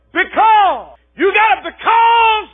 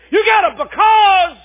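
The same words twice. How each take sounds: First: High, loud, slow preacher's shout; preaching refrain. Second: High, loud refrain shouted again; preaching refrain. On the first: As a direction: hurl the question at the congregation. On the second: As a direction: punch the refrain home. Refrain repeated. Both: Acted.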